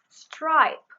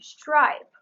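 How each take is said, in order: First: The word begins with a plain s sound. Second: The word begins with an sh sound.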